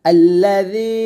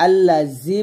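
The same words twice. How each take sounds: First: আল্লাযী chanted loud, "z" as a thin "dh"; correct soft dhal. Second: আল্লাযী spoken with a buzzing "z", unstretched; mistaken z sound. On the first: Teacher models for students, আল্লাযী chanted with thin dhal. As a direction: stretch আল্লাযী with a soft "dh" in place of z. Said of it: "এটা জাল পাতলা করে". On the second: Teacher shows the common mistake, আল্লাযী with buzzed z. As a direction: say আল্লাযী plainly with hard "z". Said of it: "ভুলটা করি আল্লাযী বলি". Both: Shown as a demonstration.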